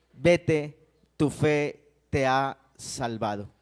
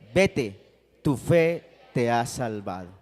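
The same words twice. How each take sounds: The two takes are said the same way.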